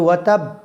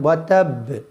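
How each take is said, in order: First: The final b is cut off abruptly. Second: The final b bounces with a downward release. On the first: The speaker calls it wrong. "কেউ ওয়াতাব বলে যে থামেন, তাহলে কিন্তু হবে না" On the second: The speaker calls it right. "আর বা নিচের দিকে উচ্চারণ যায়"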